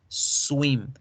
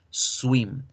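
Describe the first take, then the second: Both takes have the same delivery.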